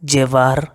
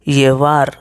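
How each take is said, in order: First: It begins with a j sound. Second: It begins with a y sound.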